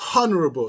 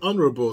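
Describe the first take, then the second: First: The word starts with an audible h sound. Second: The word starts with a vowel, no h. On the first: "H has to go like this. Ha" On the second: "they don't pronounce the H"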